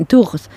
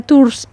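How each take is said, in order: First: "Tours" with a French throaty R; French-style Tours. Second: "Tours" without the French throaty R; Spanish-style Tours. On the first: Host restarts the question, "Tours" with uvular R. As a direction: say "Tours" as "tughs", R at the back. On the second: Host asks about last stop, "Tours" without throaty R. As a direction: say "Tours" simply, close to "tus". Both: Shown as a demonstration. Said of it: "Tours mi última parada".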